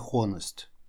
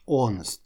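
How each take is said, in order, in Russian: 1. Слово начинается со звука h. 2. Слово начинается без звука h. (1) "не honest" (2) "буква H в этом слове немая, она не читается совсем"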